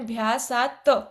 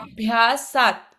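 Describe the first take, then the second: First: The final t carries a short vowel after it. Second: The final t ends bare, with no vowel. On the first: The speaker calls it wrong. "आपने अभ्यासात त ऐसा पढ़ा था" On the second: The speaker calls it right. "अभ्यासात ऐसा पढ़ना था"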